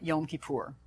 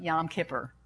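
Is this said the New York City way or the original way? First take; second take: original; New York. First: It is said in the original, non-New York pronunciation. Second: It is said in a New York City pronunciation. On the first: The speaker calls it right. "But really" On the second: The speaker calls it wrong. "New York City pronunciation"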